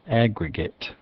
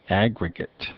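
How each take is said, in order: The two takes are said the same way.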